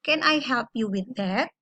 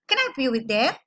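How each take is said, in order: First: "Can I help you with that?" measured, tune brought down; falling intonation. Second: "Can I help you with that?" quick, tune going up; wrong-way demo with "that" swung upward; rising intonation. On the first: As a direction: let the pitch sink through "with that". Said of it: "kita turun intonasinya". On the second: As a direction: lift the pitch upward on "that". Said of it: "Enggak naik ke atas". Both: Shown as a demonstration.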